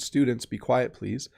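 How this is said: It is said in a kind, gentle tone. It is a polite request. "that's very kind. That's a nice way to give a command"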